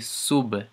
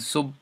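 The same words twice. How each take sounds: First: The final b is released with a bounce. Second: The final b is soft and barely heard. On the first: The speaker calls it right. "so we'd say sub, sub, sub. So that's ... what I mean by bounce" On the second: The speaker calls it wrong. "instead of saying sub, sub, sub, you can't really hear the B that well"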